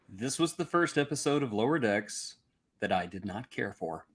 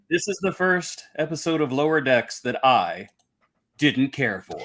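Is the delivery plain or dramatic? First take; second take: plain; dramatic. First: It is said in a plain, matter-of-fact way. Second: It is said in a heavily dramatic way.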